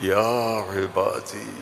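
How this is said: It is called out tenderly, with loving warmth. The speaker lovingly calls out to dear ones. The speaker calls it right. "इसमें जो मोहब्बत है"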